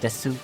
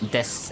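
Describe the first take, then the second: First: The final vowel is pronounced. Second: The final vowel is dropped. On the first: "as you would expect it to" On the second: "you just leave out the, the vowel"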